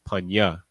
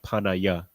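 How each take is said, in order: First: The word is said in two syllables. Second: An extra vowel splits the word into three syllables. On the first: The speaker calls it right. "It's Panya" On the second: The speaker calls it wrong. "it's not Panaya"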